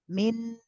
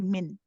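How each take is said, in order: First: The final n sound is held briefly. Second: The final n sound stops abruptly. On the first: The speaker calls it right. "You see how I stay on the noon for a bit?" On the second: The speaker calls it wrong. "we don't say min and stop all of a sudden"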